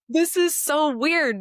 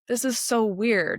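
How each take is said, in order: First: It sounds delighted and approving. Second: It sounds doubtful and questioning. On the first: The situation feels wonderfully unusual. "I would say" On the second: The situation feels wrong or suspicious. "I would question"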